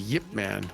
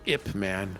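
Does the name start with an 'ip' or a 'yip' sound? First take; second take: yip; ip. First: The name begins with a y sound. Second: The name begins with a plain vowel sound. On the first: The speaker calls it right. "that's how you pronounce that" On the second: The speaker calls it wrong. "It's not I P Man or Ip Man"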